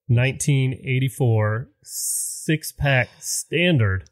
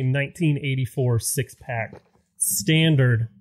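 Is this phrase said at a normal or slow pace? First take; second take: slow; normal. First: The phrase is said slowly and deliberately. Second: The phrase is said at a normal speed.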